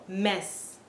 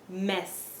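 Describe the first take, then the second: Both takes have the same delivery.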